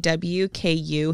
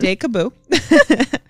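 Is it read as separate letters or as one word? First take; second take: separate letters; one word. First: The letters are spoken separately, one by one. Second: The letters are blended into one made-up word. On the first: The speaker calls it right. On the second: The speaker calls it wrong.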